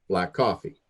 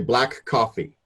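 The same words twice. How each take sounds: First: The two k sounds merge into one. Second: Both k sounds are pronounced separately. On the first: The speaker calls it right. "We don't pronounce the two K sounds in a row" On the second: The speaker calls it wrong.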